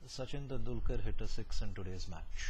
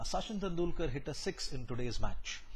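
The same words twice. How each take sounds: First: The pitch stays flat and the voice sounds bored. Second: The pitch varies and the voice sounds excited. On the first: The speaker is bored and unsure of the topic. The speaker calls it wrong. "in monotone" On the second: The speaker is engaged with the news. The speaker calls it right. "in a normal tone ... You can almost hear the excitement in my voice"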